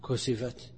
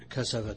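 First: The first syllable has a 'u' vowel. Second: The first syllable has an 'a' vowel. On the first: "وتضم كسفت، وهو نادر" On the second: "بفتح الكاف"

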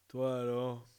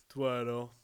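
The two takes are said the same way.

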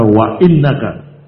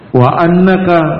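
First: The word after 'wa' begins with an 'i' vowel. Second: The word after 'wa' begins with an 'a' vowel. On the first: "boleh baca wa innaka" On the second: "boleh dibaca fathah"

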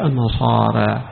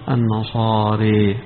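First: The final long vowel is slightly raised toward e. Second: The final long vowel is strongly raised toward e. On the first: "التقليل" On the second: "قراءة الإمالة"

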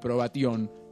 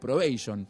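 First: The word is pronounced the Latin way. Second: The word is pronounced the English way. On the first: The speaker calls it right. "que es como se pronuncia en latín" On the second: The speaker calls it wrong. "No vamos a hacer como esos que dicen probation"

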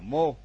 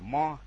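First: The vowel is a closed o sound. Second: The vowel is an open o sound. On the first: The speaker calls it right. "tiếng Pali chữ o là đọc là ô" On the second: The speaker calls it wrong. "nếu chúng ta đọc là tiếng Việt là mo"

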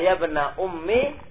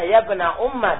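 First: The last word ends with an 'i' vowel. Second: The last word ends with an 'a' vowel. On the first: "bil kasra" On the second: "dibaca fat fathah"

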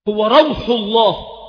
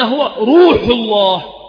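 First: The first word has a long 'u' vowel. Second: The first word has an 'aw' vowel. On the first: It means the soul or spirit of God. The speaker calls it wrong. "هكذا نطقها وكرره، وهو خطأ قبيح ومردود" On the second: It means the mercy of God. The speaker calls it right. "وإنما هو روح الله"

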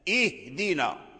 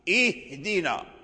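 Both takes have the same delivery.

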